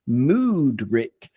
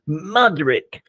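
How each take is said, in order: First: The first vowel sounds like the one in 'mood'. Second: The first vowel sounds like the one in 'mud'.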